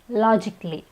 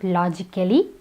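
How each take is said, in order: First: The middle 'a' syllable is not pronounced. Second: The middle 'a' syllable is clearly pronounced. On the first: The speaker calls it right. "It's logically, the A is silent" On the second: The speaker calls it wrong. "not logically"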